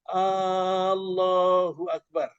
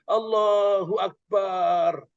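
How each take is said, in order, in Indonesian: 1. Vokal pembuka pada Allahu dibaca panjang. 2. Suku kata terakhir pada Akbar dibaca panjang. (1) "Hanya panjang" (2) "Karena Akbar kalau panjang artinya kendang"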